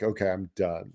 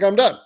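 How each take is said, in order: First: Low, quiet retold surrender; resigned giving up. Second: High-pitched retold declaration; exasperated quitting. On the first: Angler quitting after losing gear, quietly resigned. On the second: Angler quitting as the rocks eat gear, high and exasperated. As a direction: pitch it up, throwing in the towel. Retold giving up, second time.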